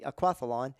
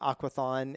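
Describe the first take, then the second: First: It is said with an l sound. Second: It is said with no l sound. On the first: "But it's actually aquathlon" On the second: "a lot of people they say aquathon"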